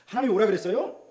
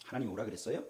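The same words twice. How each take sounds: First: 오라 pushed higher and louder; stress on 오라. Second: Said in the usual way. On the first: Shown as a demonstration. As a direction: press the word 오라 as a challenge. (오라에 힘을 주어 높고 크게) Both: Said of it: "repeated rhetorical question".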